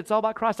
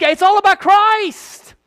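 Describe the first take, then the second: First: Hushed repeat. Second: Slow, loud, much higher proclamation; preaching climax. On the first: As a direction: pull it back to a near hush. Dropped low after the climax. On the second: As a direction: shout the climax to the back pew. Climax of the sermon. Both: Acted.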